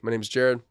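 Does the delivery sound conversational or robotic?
conversational. It is said in a relaxed, conversational way. The speaker calls it right. "Just make it conversational"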